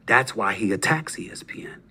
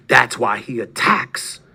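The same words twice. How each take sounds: First: Hushed whisper, leaning in. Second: Slow, deliberate, each word weighed; slow emphasis. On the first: Host whispering a jab at his rival. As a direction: whisper it like a secret. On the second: Host repeating his accusation slowly, deliberately. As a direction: drag it out to drive the point home. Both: Real, not acted.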